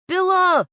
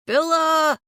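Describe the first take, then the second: First: Full high shout through cupped hands; shouting a name. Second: Loud high call across the woods. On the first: Boyfriend shouting for the lost aunt through cupped hands. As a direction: yell the name as far as it carries. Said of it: "He cups his mouth". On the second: Searching the woods for the missing aunt, calling out loud. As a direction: call her name into the trees. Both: Acted.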